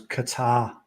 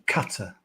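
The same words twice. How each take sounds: First: Qatar said kuh-TAR, second syllable stressed. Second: Qatar said KAT-uh, first syllable stressed. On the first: Host shows his own way of saying the country, kuh-TAR. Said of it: "I've always stressed the second syllable". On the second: Host gives the version he does not use, KAT-uh. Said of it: "rather than". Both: Shown as a demonstration.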